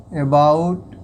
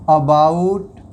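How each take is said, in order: Both takes have the same delivery.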